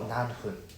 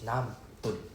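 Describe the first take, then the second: First: The second syllable starts with an f sound. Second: The second syllable starts with a p sound. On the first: The speaker calls it wrong. "it's not 何分" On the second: The speaker calls it right. "It's 何分. P U N"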